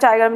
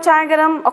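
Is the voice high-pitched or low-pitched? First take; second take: low-pitched; high-pitched. First: It is said in a low voice. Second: It is called out in a high voice. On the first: The speaker calls it wrong. "it is not a low like chai garam" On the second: The speaker calls it right. "how they we used to call chai garam"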